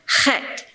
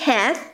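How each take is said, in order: First: The word ends with a plain t sound. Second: The word ends with a th sound. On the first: The speaker calls it right. "it's chet" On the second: The speaker calls it wrong. "it shouldn't be heth"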